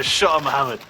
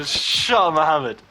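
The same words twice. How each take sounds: First: Said in the usual way. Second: Loud mocking jab; punchy retold taunt. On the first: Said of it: "and I just go". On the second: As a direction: Shut up, Mohammed thrown out louder and higher. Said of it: "I just go".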